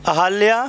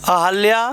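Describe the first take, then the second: Both takes have the same delivery.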